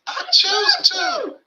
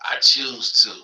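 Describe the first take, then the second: First: It is said in a put-on voice. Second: It is said in his own voice.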